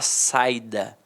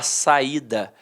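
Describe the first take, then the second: First: The i glides together with the a before it. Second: The i is stressed as its own syllable. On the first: This is how the word would be read without the accent mark. "se eu tirar o acento, ... eu vou falar saída" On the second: This is how the word with the accent mark is read. "eu não vou falar saída"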